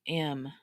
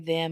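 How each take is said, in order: First: A reduced form with the th sound dropped. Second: The full form with the initial th sound. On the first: The speaker calls it right. "I say M" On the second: The speaker calls it wrong. "I don't even say them"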